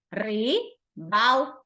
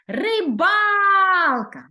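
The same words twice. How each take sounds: First: "Рибалка" split slowly into its three syllables, ри-бал-ка. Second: "Рибалка" very slow and loud, the second syllable ба stretched and punched; stress on second syllable. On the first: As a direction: spell out "Рибалка" slowly, one syllable at a time. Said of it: "У слові рибалка три склади". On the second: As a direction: hold and hit the ба in "Рибалка". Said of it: "Наголошений другий склад". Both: Shown as a demonstration.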